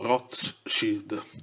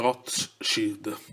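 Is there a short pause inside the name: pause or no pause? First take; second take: pause; pause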